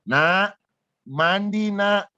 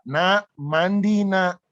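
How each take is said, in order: First: The voice is pitched somewhat higher. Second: The voice is at its lowest pitch. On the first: A second, more insistent call. "Suara agak lebih tinggi" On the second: A first ordinary call to bathe. "biasanya saya teriak"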